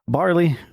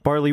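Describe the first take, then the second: First: It is said in a Southern-sounding voice. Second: It is said in a nerdy voice.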